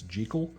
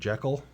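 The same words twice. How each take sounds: First: The name is said with a Scottish pronunciation. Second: The name is said with an American pronunciation. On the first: "if you do the Scottish pronunciation" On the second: "a lot of Americans call him Jekyll"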